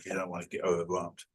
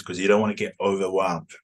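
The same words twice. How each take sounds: First: Much softer repeat, slightly lower; soft aside. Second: Said in the usual way. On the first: Real, not acted. Teacher repeating advice to learners as a soft aside. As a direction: drop the volume for a quiet reminder.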